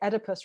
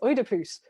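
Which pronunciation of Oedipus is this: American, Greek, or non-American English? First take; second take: American; Greek. First: The name is said with an American pronunciation. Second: The name is said with a Greek pronunciation. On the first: This is how people in the States say it. The speaker calls it wrong. "when I come and gig in the States, people say, oh, you know, we say Oedipus wrong" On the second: This is how it is said in Greek. The speaker calls it right. "the Greek is Oedipus"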